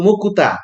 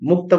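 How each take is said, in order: First: An extra vowel splits the k and t sounds. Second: The k and t sounds are joined directly. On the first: This is how a Japanese speaker would say it. "জাপানি ভাষায় এটা এটা এটা বলতো মুকুতা" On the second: This is the native Bengali form. "মুক্তা বলতো না"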